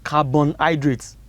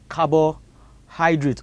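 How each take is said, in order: First: The first part is said as 'carbon'. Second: The first part is said as 'carbo'. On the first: The speaker calls it wrong. "I have heard so many of you pronounce it as carbohydrates. It is not carbon" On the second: The speaker calls it right. "it is carbohydrate"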